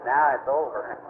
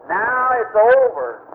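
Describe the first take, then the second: First: Said in the usual way. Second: "Now it's over" drawn out slowly, louder, landing hard on "over"; slow it right down and punch "over"; slow emphatic repeat. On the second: Retold or imitated. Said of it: "That's right".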